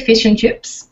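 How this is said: Said in an Australian accent with a clear 'i'. "We say fish and chips"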